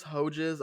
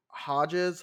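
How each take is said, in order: First: Hodges with a long o, HOH-jiz; alternative pronunciation. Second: Hodges with an "ah", HAH-jiz; unsure pronunciation. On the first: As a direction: say Hodges with a first vowel like "hoe". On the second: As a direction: say Hodges with an open first vowel, like "hah". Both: Shown as a demonstration. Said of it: "I don't know".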